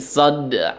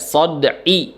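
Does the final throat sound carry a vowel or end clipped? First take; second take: clipped; vowel. First: The final throat consonant is clipped, half sounded. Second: The final throat consonant carries a vowel. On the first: The speaker calls it right. "disukunkan, kemudian dibacanya hanya setengahnya" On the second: The speaker calls it wrong. "jadi enggak sod'i ya"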